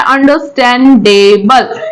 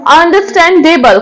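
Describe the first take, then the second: First: understandable drawn out slowly, ending on a rise; slow rising understandable prompting the class; slow questioning rise. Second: Said in the usual way. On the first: Shown as a demonstration. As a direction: stretch understandable out and lift the end like a quiz answer. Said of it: "वो कैसी है?". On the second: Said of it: "कोई thing है आपकी".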